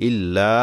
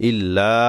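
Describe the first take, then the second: Both takes have the same delivery.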